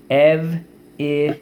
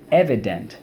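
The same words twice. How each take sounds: First: "Ev-i-dent" in three slow, separated beats, raised pitch; syllable by syllable. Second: Said in the usual way. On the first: Shown as a demonstration. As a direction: sound out "Ev-i-dent" with pauses between syllables. Teacher sounds out word by syllables.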